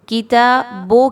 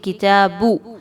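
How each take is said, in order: First: The word ends with an 'o' vowel. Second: The word ends with a long 'u' vowel. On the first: The speaker calls it wrong. "किताबो की आवाज़ ना आए" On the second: The speaker calls it right. "बल्कि किताबू"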